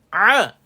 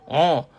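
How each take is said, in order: First: The sound is made without nasal resonance. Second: The sound is made through the nose. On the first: The speaker calls it right. "Dia tak keluar kat hidung" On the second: The speaker calls it wrong. "Sengau bunyi dia"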